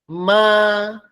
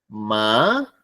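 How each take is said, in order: First: Said with the tone for the word mother. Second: Said with the tone for the word hemp. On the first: It means mother. "significa mamá" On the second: It means hemp. "significa cáñamo o marihuana"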